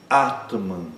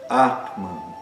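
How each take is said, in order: No difference in how they are said.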